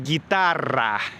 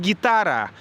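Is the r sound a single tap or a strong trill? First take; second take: strong trill; single tap. First: The r is a long strong trill. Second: The r is a short single tap. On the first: The speaker calls it right. "произносить «р» так, как произносят испанцы" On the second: The speaker calls it wrong. "это не гитара"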